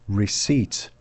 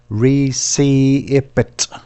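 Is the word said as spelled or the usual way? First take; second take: usual way; as spelled. First: It is said the usual way, not letter by letter. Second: It is said letter by letter as it is spelled. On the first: "It's called a receipt" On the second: "if you say this word phonetically"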